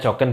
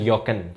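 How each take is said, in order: First: It begins with an English j sound. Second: It begins with a y sound. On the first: The speaker calls it right. "dibaca Jogen" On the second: The speaker calls it wrong. "bukan Yogen"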